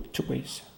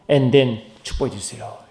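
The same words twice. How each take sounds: First: Whispered. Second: Said in the usual way. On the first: Pretend. Preacher voicing a believer's prayer, whispered softly. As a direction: whisper "축복해 주세요" almost under the breath.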